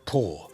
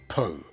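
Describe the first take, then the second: First: The vowel sounds like aw. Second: The vowel sounds like oh. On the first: This has a different meaning. The speaker calls it wrong. "not Paw" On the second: This is the speaker's real name. The speaker calls it right. "It is Po"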